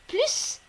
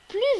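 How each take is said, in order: First: The final S sound is pronounced. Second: The final S sound is silent. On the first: It compares a quantity. "on prononce bien le S dans plus" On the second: It compares a quality. "on ne prononce pas le S"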